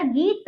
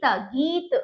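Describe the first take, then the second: First: गीत split as a long गी, then त; broken into letters. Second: गीत as one whole word with long ई; joined up. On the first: Teacher spells the word out for pupils, broken up. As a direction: read गीत in separate pieces. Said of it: "तोड़कर भी पढ़ा". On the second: Teacher reads the word whole for pupils, joined up. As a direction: blend गीत into a single syllable. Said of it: "जोड़कर भी पढ़ा". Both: Shown as a demonstration.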